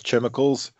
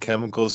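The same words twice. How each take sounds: First: It begins with a ch sound. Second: It begins with a k sound. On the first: "he says chemicals. It's got a C-H in it. That's how he's going to pronounce it" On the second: "Instead of saying chemicals"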